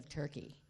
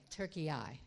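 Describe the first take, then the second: First: It is said as the two-syllable English name. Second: It is said as the three-syllable Turkish name.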